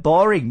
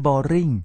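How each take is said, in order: First: "boring" with a strong first syllable; correct English stress. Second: "boring" with Thai tones, end raised; wrong Thai-style pronunciation. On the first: Teacher modelling the proper accent, English stress. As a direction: lean on "bo" in "boring". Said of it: "มันมีสำเนียงของมัน". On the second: Teacher showing what it is not, Thai-style boring. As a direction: say "boring" without English stress. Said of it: "ไม่ใช่ tedious ไม่ใช่ boring". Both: Shown as a demonstration.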